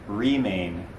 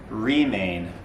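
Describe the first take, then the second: Both takes have the same delivery.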